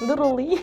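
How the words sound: The word is said with an American accent. This is how Americans say it. "Americans say like literally"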